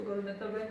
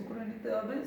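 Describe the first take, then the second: No difference in how they are said.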